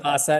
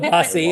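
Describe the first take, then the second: First: The word ends with an 'ah' sound. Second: The word ends with an 'ee' sound. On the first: The speaker calls it right. "it's kielbasa" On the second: The speaker calls it wrong. "It's not kielbasi"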